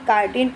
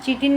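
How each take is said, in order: First: The word begins with a k sound. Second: The word begins with a ch sound. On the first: The speaker calls it right. "काइटिन pronunciation किया जाता है" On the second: The speaker calls it wrong. "इसको बेटा चीटिन नहीं बोलेंगे"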